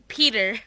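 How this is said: The word is said in an American accent. "American would be Peter"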